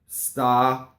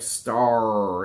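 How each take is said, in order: First: A pure vowel is followed by a separate R. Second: An American R blends into the vowel. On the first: The speaker calls it right. "So you want star" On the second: The speaker calls it wrong. "it will bleed into the word like star, and you don't want that"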